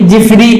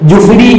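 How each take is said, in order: First: The first syllable has an 'i' vowel. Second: The first syllable has a 'u' vowel. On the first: "പല കോലത്തിലും പറയാറുണ്ട്" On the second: "ജീമിനിക്ക് ലമ്മ് കൊണ്ട് ജുഫ്രി എന്നാ വായിക്കേണ്ടത്"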